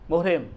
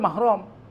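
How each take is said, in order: First: It is said as muhrim, with u and i. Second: It is said as mahram, with two a vowels. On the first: This is the everyday Indonesian form. The speaker calls it wrong. "Kalau bahasa kita muhrim" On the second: This is the Arabic form. The speaker calls it right.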